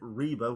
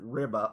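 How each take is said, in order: First: The first vowel sounds like 'ee'. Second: The first vowel sounds like 'ih'. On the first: The speaker calls it right. "I pronouncing it Reba, which is correct" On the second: The speaker calls it wrong. "I still pronounce it Ribba over and over"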